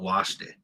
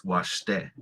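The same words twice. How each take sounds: First: Washte with WASH stressed, te weak; wrong first-syllable stress. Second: Washte with the stress landing on TE; light wash, firm TE: wash-TE; second-syllable stress. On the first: Teacher showing what it's not, stress on the first syllable. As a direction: lean on WASH, drop te. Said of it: "It's not washte". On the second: Teacher correcting the learners, stress on the second syllable. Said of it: "It's washte". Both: Shown as a demonstration.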